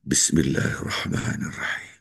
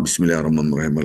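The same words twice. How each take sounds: First: It is recited slowly and calmly. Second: It is recited quickly and hurriedly. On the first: The speaker calls it right. "Baca dengan tumanina" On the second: The speaker calls it wrong. "Buang Al-Fatihah seperti itu"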